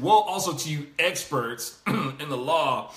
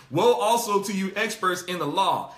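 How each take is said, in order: First: Woe also drawn out slowly with sarcasm; mock the experts, slow and dry; slow, dripping sarcasm on "Woe"; sarcastic. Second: Said in the usual way. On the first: Shown as a demonstration. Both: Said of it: "saying it sarcastically".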